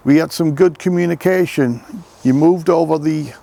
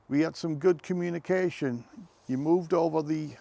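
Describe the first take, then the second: First: Loud call to the spirits; calling out loudly. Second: Said in the usual way. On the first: Real, not acted. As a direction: call it out loudly across the graveyard. Same words repeated much louder.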